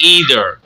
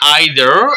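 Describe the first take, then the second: First: The first vowel sounds like 'ee'. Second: The first vowel sounds like 'eye'. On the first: "ईदर भी पढ़ सकते हैं, दोनों pronunciation दुरुस्त है" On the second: "आइदर भी पढ़ सकते हैं इसको"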